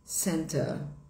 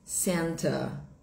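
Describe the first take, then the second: Both takes have the same delivery.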